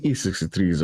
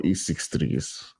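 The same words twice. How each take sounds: First: "E sixty-threes", with sixty in full; unsure reading of "E sixty-threes"; name as sixty-threes. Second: "E six threes", six and threes as separate digits; name as six threes. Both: Shown as a demonstration. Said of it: "how to mention his name".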